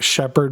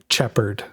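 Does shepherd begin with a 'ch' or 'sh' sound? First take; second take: sh; ch. First: The word begins with a 'sh' sound. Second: The word begins with a 'ch' sound.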